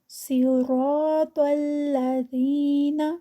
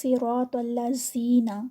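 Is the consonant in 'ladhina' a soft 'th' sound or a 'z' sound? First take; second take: soft th; z. First: The consonant is a soft 'th' between the teeth. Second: The consonant is a hard buzzing 'z' sound. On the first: The speaker calls it right. "बहुत सॉफ्ट जो है ऊपर और नीचे वाले दांतों के दरमियान में ज़ुबान आएगी" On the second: The speaker calls it wrong. "इसमें जो बड़ी मिस्टेक है वो हम पढ़ते हैं"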